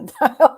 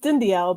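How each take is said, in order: First: The name is said in a shortened form. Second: The name is said in its full form. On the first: This is the simpler form most people use. "a lot of people say Dindal, so I just say" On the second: This is the name's own pronunciation. "It's um it's Dindial"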